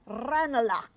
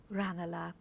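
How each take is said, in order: First: Loud tannoy-style call of the stop; booming announcement of the stop; station announcement. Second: Said in the usual way. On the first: Acted. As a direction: call the station name like a platform speaker.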